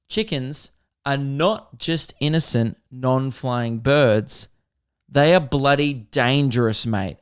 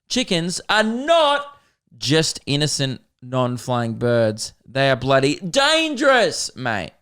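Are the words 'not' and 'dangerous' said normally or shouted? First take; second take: normally; shouted. First: 'Not' and 'dangerous' are at normal loudness. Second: 'Not' and 'dangerous' are screamed loudly.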